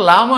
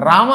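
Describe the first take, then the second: First: లామ, the r replaced by l; childlike l-for-r. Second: రామ with a tapped r at the start; proper "r". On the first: Retold or imitated. Guru excuses childlike devotees, లామ with l for r. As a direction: say లామ like a small child who cannot make r. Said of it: "మనందరం చిన్నపిల్లలం గనక". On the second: Shown as a demonstration. Guru contrasts adult and childish naming, రామ with r. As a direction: say రామ with a clear r, not l. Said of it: "రామ అని లేక లామ అంటే".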